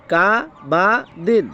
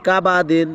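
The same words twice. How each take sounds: First: কা, বা, দিন each said apart with pauses; syllable by syllable. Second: কাবাদিন run together as one word; joined up, quicker. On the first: Teacher breaks the word up for learners, syllable by syllable. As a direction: spell out কা বা দিন one drawn syllable at a time. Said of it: "যখন একসাথে বলবো". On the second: Teacher models the word read together, joined up. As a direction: say কাবাদিন with short vowels, no gaps. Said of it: "হরকতের উচ্চারণগুলো একটু দ্রুত হবে". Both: Shown as a demonstration.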